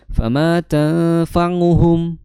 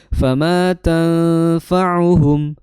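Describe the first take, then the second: First: The ain is voiced through the nose. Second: The ain comes from the throat, without nasality. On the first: The speaker calls it wrong. "nah itu kurang tepat" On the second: The speaker calls it right. "Maka yang tepat adalah"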